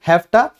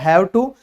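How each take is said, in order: First: The words are blended into one, hafta. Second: Both words are said fully and separately.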